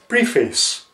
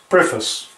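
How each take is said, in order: First: It is said as 'pree' plus 'face'. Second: It is said as 'preff' plus 'iss'. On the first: The speaker calls it wrong. "It's not pre and face" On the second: The speaker calls it right. "It is pronounced pref s"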